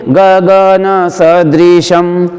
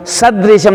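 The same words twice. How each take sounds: First: गगन सदृशम chanted slowly, every syllable even; level, measured गगन सदृशम with unstressed स; no stress on स. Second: सदृशम with a punch on स, closing onto द; wrong demo: सदृशम accented on स; stressed स, wrong version. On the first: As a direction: intone गगन सदृशम without leaning on स. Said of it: "तो कैसे बोलेंगे?". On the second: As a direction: hit the first syllable of सदृशम hard and quick. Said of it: "बलाघात नहीं करेंगे स के ऊपर". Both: Shown as a demonstration.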